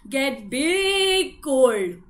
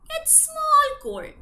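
First: Big voice. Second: High and slow for small cold; tiny voice. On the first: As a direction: make it sound huge and heavy. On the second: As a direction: squeak it small. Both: Acted.

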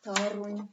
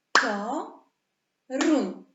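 First: Said in the usual way. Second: "Toruń" split into two very loud, long syllables, "To" and "ruń"; podział na sylaby. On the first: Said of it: "Trzecie miasto". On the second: Shown as a demonstration. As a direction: call out "Toruń" syllable by syllable, higher and much louder. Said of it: "Podzielmy na sylaby". (bardzo głośno sylabami: „To”, pauza, „ruń”)

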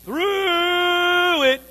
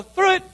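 First: High, loud, drawn-out through; a weary, groaning call; long drawn-out wail. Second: Quick and light. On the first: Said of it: "But sometimes you're going". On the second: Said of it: "We like to just go". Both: Shown as a demonstration.

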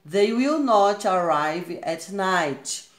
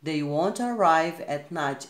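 First: Very slow reading with "will not" in full; slow example with full form. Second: Slow reading using "won't"; slow example with contraction; slow contracted form. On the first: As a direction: say "will not" separately and slowly. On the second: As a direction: squeeze it to "won't", steady pace. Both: Shown as a demonstration. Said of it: "Está aqui na forma contraída".

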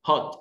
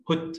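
First: American "hot" with an open ah vowel, like "haht"; American-accented "hot". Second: British "hot" with a short rounded o; British-accented "hot". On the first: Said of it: "In American accent". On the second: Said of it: "In British accent". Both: Shown as a demonstration.

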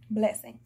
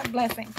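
First: Said in the usual way. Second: Laughing. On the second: Shown as a demonstration.

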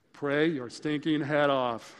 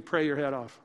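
First: Slow, weighted, every word leaned on; emphatic slow repeat. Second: Said in the usual way. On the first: Real, not acted. Preacher urging parents to pray, slow emphatic push. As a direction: drive it home slowly.

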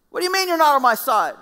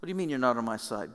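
First: Much higher, louder shocked cry; shocked shout. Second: Said in the usual way. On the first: Retold or imitated. The preacher imagines his own outraged question to God, shouting. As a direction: yell it in disbelief. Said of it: "My response would have been".

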